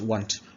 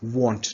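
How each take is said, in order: First: The vowel is not a short O. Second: The vowel is a short O. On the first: The speaker calls it wrong. "not want" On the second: The speaker calls it right.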